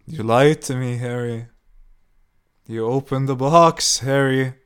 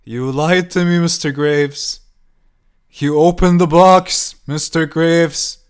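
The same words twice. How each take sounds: First: Loud screaming accusation. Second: Higher, louder, slower screeching; escalated screaming. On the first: Old woman banging on Harry's door, screaming. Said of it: "she screamed". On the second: Old woman pounding the door, slower, higher shrieking scream. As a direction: stretch every word into a shrieking accusation. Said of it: "She continued on with her screaming". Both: A narrator's reading.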